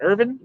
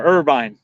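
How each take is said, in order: First: IRVIN, short ending, rising as a question; short-i pronunciation. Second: IRVINE with a drawn "vine" ending; long-i pronunciation. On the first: Checking first or second option, short-ending Irvin. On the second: Checking first or second option, long-i Irvine. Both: Shown as a demonstration. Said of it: "This first one or the second one?".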